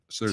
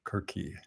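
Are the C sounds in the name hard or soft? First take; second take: soft; hard. First: The C sounds are soft, like S. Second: The C sounds are hard, like K. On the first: "I believe it's pronounced Circe's island" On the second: "if we treat them as hard C's, we get Kirky"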